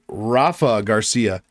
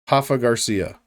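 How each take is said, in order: First: The name begins with an R sound. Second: The name begins with a breathy H sound. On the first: The speaker calls it right. "It is Rafa" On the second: The speaker calls it wrong. "They're going to say Hafa"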